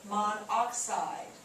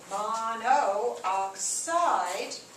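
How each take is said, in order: First: The two o vowels merge into one. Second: Two o vowels are said separately, back to back. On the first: The speaker calls it right. "And so they say monoxide" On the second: The speaker calls it wrong. "they don't say mono oxide because in their infinite wisdom they didn't like two vowels back to back"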